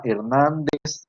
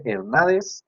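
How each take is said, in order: First: "Hernández" slow and full, with the n before d; correct pronunciation. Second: "Hernández" read as Her-NA-des, dropping the n before d; misspelt pronunciation. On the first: Teacher dictates a surname to fix, correct slow pronunciation. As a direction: draw out "Hernández", sounding both n's. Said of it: "escríbanlo bien". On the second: Teacher reads out the misspelt surname as written, missing n. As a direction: drop the second n in "Hernández". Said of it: "porque ahí dice Hernández". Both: Shown as a demonstration.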